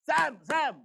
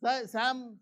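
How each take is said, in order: First: Sam, Sam called louder and higher; urgent calling. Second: Said in the usual way. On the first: Shown as a demonstration. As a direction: call Sam twice so he snaps to attention. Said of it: "Then he will be alert". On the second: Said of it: "He will be quiet".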